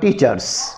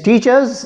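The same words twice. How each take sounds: First: The final sound is a hissing S. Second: The final sound is a buzzing Z. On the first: The speaker calls it wrong. "and not teachers" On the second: The speaker calls it right. "It is teachers"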